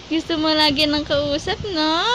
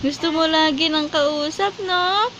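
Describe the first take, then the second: No difference in how they are said.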